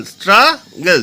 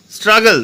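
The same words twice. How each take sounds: First: "struggle" slowed into two, stra, gal; split into syllables. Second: Said in the usual way. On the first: Shown as a demonstration. Teacher showing two syllables, "struggle" said in separate parts. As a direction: pause between both syllables of "struggle". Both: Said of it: "দুটো syllable আছে".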